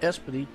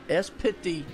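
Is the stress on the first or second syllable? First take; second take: first; second. First: The stress is on the first syllable. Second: The stress is on the second syllable. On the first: The speaker calls it wrong. "I used to say Espity" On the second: The speaker calls it right. "he puts the emphasis on the pit part"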